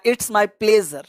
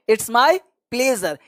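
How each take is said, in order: First: Said in the usual way. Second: Very slow, every word stretched out; slow demo. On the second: Shown as a demonstration. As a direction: say it slowly for learners to copy. (बहुत धीमे, शब्द खींचकर) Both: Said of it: "या".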